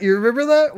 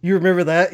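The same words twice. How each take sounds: First: You remember that squeaked high; much higher. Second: Said in the usual way. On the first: Shown as a demonstration. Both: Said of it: "repeated higher".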